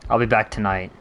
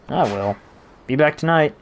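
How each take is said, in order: First: It runs on as one sentence. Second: A pause splits it into two sentences. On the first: It sounds more ominous. "it sounds like it could be one" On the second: It is two separate statements. "I tried to like emphasize that it's like two different sentences"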